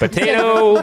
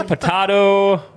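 First: POTATO with a long "tay", high and drawn out; sing-song POTATO as po-TAY-to; po-TAY-to version. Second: POTATO with an open "tah", high and slow; po-TAH-to version. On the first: Host defends both pronunciations, sing-song po-TAY-to. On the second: Host defends both pronunciations, slow po-TAH-to. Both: Shown as a demonstration. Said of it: "I've heard it both ways".

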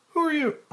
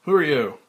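First: Asked in a high woman's voice by mistake; a slip into Claire's high voice; wrong voice, Claire's. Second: Loud, hard demand in his own voice; Frank demanding. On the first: Frank asking the boy, mistakenly read in Claire's high voice. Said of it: "Frank, pointing over her shoulder". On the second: Frank confronting the hidden boy, loud and demanding. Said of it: "Frank, pointing over shoulder". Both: Acted.

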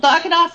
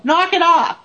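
First: Imitating the lady's high yell; mock yell, pitched well up and quick; retold yell. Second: High mock yell; retold yell. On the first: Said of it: "she closed her eyes and she yelled". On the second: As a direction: call it out high, imitating a firm order. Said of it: "close your eyes and yell".

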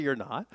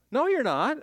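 First: Said in the usual way. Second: Higher, louder flat denial; emphatic no. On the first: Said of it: "restated calmly after emphatic take". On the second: Real, not acted. Preacher flatly contradicting the self-righteous, emphatic. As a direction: shut the claim down hard. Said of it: "emphatic rebuttal, repeated below".

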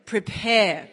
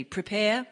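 First: Louder, bigger Prepare; big call. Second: Said in the usual way. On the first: Shown as a demonstration. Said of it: "big one". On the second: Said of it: "Can you say that with me?".

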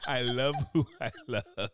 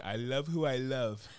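First: Slow, through laughter; laughing repeat. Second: Slow, drawn-out mock declaration; slow mocking quote. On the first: Retold or imitated. Repeating the mocked slogan while laughing. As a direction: let the laugh break into the words. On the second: Mocking people who defend a partner, slow proud slogan. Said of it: "people be saying".

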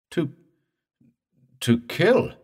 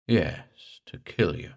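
First: Halting, high, rising disbelief; choked question. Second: Lightly voiced ghostly confirmation, falling at the end; understated, creepy certainty; slow, creepy speech. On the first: Morse learning the dead man's purpose, choked question. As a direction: stammer it out, choked with shock. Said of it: "Morse choked". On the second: Drowned man confirming it to Morse, slow creepy speech. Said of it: "The slow, creepy speech". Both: A narrator's reading.

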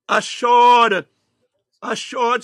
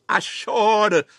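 First: Assured belted out much louder; loud emphatic assured; loud repeat. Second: Said in the usual way. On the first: Shown as a demonstration. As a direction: hit assured hard on the second time. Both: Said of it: "repeated for emphasis".

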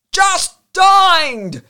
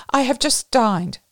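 First: High, very loud desperate roar; drawn-out desperate bellow; despairing roar. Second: Higher, louder polite excuse; raised-voice refusal. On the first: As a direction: roar it in despair over the din. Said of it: "he roared despairingly". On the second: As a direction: decline politely over the noise. First, milder refusal over noise. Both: A narrator's reading.

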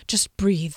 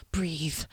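First: Said in the usual way. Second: Unvoiced whisper to oneself. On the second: A narrator's reading. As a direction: whisper it to calm yourself.

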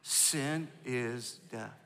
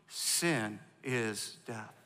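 First: Very slow, quiet echo; slow repeat. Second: Very slow, word by word; slow call and response. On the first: Pastor asking the church to repeat it softly. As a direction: lay each word down softly and slowly. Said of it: "Say it again". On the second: Pastor leading the church to chant it slowly. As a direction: drag out each word for the congregation to echo. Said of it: "Say it with me". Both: Shown as a demonstration.

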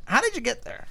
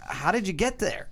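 First: Squeaky high-pitched mock question; high silly voice. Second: Said in the usual way. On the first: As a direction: ask it in a goofy high voice. Repeated in a high put-on voice.

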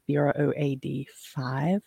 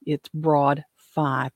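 First: "B R O A D" spelled letter by letter, then five. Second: "broad five" said slowly as one word. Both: Shown as a demonstration.

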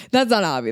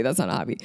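First: Said in the usual way. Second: Much lower, softer repeat, stress on not; low muttered repeat. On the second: Shown as a demonstration. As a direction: drop the voice on "not a hobby".

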